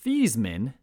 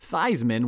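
First: The name does not rhyme with Heisman. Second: The name rhymes with Heisman. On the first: This is the original family pronunciation. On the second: This is the pronunciation adopted for publicity.

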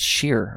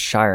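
First: The vowel sounds like the one in 'fear'. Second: The vowel sounds like the one in 'fire'. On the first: The speaker calls it right. "unless it's pronounced Sheer or something like that" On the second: The speaker calls it wrong. "Shire is not pronounced Shire"

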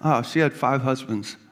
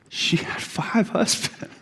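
First: It is said casually, as if unimportant. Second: It is said with shock at the weight.

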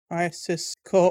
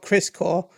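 First: The first word has two full syllables. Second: The first word is shortened to one syllable. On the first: The speaker calls it right. "Crisis Core, all caps, because it deserves it" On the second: The speaker calls it wrong. "Not Chris Core"

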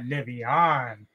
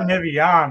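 First: The name is pronounced in a fancy, refined way. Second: The name is pronounced in a plain, ordinary way. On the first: The speaker calls it right. "you say it fancy" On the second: The speaker calls it wrong. "Not Nivion"

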